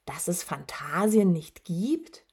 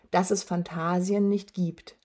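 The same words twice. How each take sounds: First: Rising, incredulous repetition; understated shock, lifting at the end; stunned disbelief. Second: Said in the usual way. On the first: A narrator's reading. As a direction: echo it as a baffled question. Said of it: "wiederholte Atreo fassungslos".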